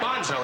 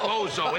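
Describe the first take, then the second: First: Bonzo said as PON-zo, with an n before the z; Bonzo, n sound kept in the middle. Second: Bozo said as BOH-zo, with no n; Bozo, long o and straight into the z. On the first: Corrected on air, he says Bonzo with the n. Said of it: "It's Bonzo". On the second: Corrected on air, he says Bozo with no n. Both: Shown as a demonstration.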